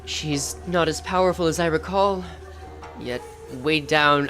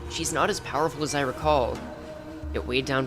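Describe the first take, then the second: First: It is read in a formal, lofty voice. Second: It is read in a casual Californian voice. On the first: The speaker calls it wrong. "I'm doing the formal voice" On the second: The speaker calls it right. "He's still like a Californian to me"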